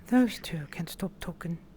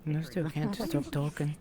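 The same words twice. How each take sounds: First: It is said in a put-on character voice. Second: It is said in the speaker's own natural voice.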